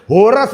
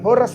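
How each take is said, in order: First: It is said in a deep, heavy voice. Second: It is said in a light, thin voice.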